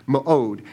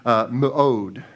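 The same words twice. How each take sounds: First: Mu'od again, meh-ODE, falling at the end; repeating the Hebrew term for the congregation; Hebrew word repeated. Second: Mu'od said as "meh-ODE", stress on the last part; preacher teaching the Hebrew word, carefully pronounced. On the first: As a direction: say Mu'od once more, clear and slow. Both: Shown as a demonstration. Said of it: "the word for the word strength is the word".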